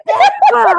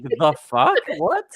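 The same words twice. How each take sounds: First: Loud, very high mock scream; imitated singer's scream. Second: Puzzled question in normal volume; baffled echo. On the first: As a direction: shriek it like the frontman. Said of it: "he just kept screaming". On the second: Retold or imitated. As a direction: echo it back, rising in disbelief. Baffled listener echoes the screamed lyric.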